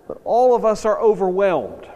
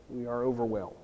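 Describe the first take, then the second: First: Louder and higher, stressing all; emphatic overwhelmed. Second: Softer, falling "overwhelmed"; soft echo. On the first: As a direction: lean hard on "all" to stir the room. Preacher stresses shared awe. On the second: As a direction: let "overwhelmed" sink in quietly. Preacher repeats the point softly. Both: Real, not acted.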